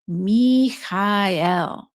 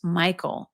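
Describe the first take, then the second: First: The vowel sounds are drawn out and emphasized. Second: The vowel sounds are short and plain. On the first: It is the older way the name was said. "really, just really emphasize the vowel sounds" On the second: It is the usual modern English way of saying it. "instead of just Michael, the more, you know, Anglican way of saying it"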